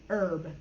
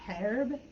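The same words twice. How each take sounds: First: "herb" with no H, starting on the vowel; American silent-H herb. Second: "herb" with the H sounded, attempted British way. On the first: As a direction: drop the H from "herb", like "erb". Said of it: "we don't pronounce the H". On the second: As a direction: say "herb" starting on an audible H. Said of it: "They might pronounce the H". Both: Shown as a demonstration.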